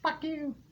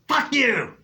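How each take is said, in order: First: It is said in a small child's voice. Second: It is shouted in an adult's angry voice.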